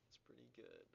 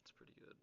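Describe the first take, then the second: First: Said in the usual way. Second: Breathy whisper, no voice at all; whispered to self. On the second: Real, not acted. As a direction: barely whisper it to yourself. Muttering to self over score.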